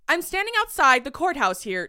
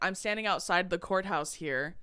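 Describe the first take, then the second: First: The voice is high and bouncy. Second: The voice is low and even. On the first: "it's more bouncy and high" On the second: "instead of me saying like"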